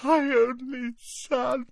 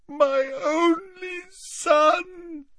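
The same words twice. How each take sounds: First: Moaning. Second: Very slow, high, crying wail.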